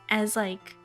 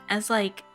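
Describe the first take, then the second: Both takes have the same delivery.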